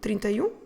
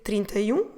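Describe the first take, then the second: Both takes have the same delivery.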